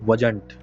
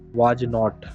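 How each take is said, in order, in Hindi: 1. इसे एक जुड़े हुए शब्द की तरह बोला जाता है। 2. इसे दो अलग शब्दों की तरह बोला जाता है। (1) "इसे हमेशा एक साथ ऐड करके बोलना है" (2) "वाज नॉट, नहीं है"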